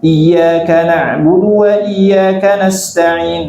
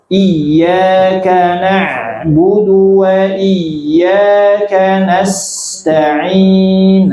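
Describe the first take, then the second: First: The verse is recited at a fast pace. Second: The verse is recited at a slow pace. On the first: "Misalkan baca cepat" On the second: "Kalau yang lambat bacanya lagi belajar"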